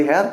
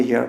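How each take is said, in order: First: হেয়ার said like "hair", the mistaken way; হেয়ার with an open "heh" vowel, as in hair; the wrong "hair" sound for হেয়ার; wrong pronunciation. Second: হেয়ার said "hee-ar", as in English here; হেয়ার with a long "ee" then "ar"; the right "here" sound for হেয়ার; correct pronunciation. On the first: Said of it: "উচ্চারণটা হেয়ার না কিন্তু". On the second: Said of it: "হিয়ার বলবেন". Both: Shown as a demonstration.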